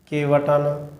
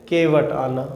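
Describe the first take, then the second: No difference in how they are said.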